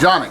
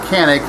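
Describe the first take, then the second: First: The name is said the Turkish way. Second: The name is said the American way. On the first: This is how it is said in its home country. "the exact pronunciation of Canik uh, from Turkey would be Jonic" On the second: This is how people here usually say it. "everybody on this side of the pond calls it Canik"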